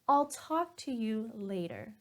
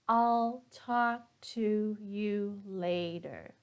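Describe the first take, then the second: First: The words talk and later are stressed. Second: Every word is said evenly with no stress. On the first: "the natural way, I stress the word talk and later" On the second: "I'm going to read every single word the same with no stress"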